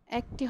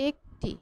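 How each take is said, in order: First: একটি started with a wide "æ", as "æk-ti"; open-vowel pronunciation. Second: একটি with a narrow "e", as "ek-ti"; closed-vowel pronunciation. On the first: Teacher rejecting a form for students, একটি with open "æ". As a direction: give একটি the mistaken open first vowel "æ". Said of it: "একটি হবে না". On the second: Teacher answering which form is correct, একটি with closed "e". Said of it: "উচ্চারণটি কী হবে?". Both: Shown as a demonstration.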